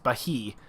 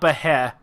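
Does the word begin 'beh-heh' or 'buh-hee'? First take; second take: buh-hee; beh-heh. First: The opening sounds like 'buh-hee'. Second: The opening sounds like 'beh-heh'. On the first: The speaker calls it right. "it's Bahi" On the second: The speaker calls it wrong. "So it's not Beheh"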